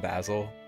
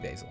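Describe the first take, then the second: First: The name is said with a British pronunciation. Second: The name is said with an American pronunciation. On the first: "Like we're British?" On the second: "No, we'll do Basil"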